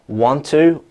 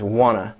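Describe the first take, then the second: First: Both words are said fully, with a clear t. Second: The t sound is dropped, giving one blended word. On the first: "Want to is changing to wanna" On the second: "There's a deletion of those sounds"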